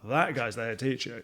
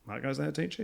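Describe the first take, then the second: First: The tone is admiring and impressed. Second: The tone is scornful and disapproving. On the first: The listener respects him. "you're like, great" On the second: The listener looks down on him. "you're like, I don't want that"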